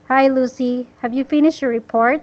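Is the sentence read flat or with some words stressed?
flat. It is read flat, with no word stressed. The speaker calls it wrong. "when you're reading this without sentence stress, this is how you read"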